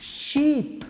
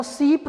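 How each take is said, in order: First: शीप with a clear sh, never सीप; शीप said right, with sh and not s; correct sh sound. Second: सीप with a plain s, as the mistaken version; सीप with a sharp s instead of sh; wrong s sound. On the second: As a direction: show सीप as the wrong way to say शीप. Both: Shown as a demonstration. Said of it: "अब इसको सीप तो नहीं बोलते".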